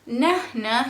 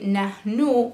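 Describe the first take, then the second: First: The word is said in the dialect form. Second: The word is said in the standard form. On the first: "they are saying it their way" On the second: "otherwise you will say"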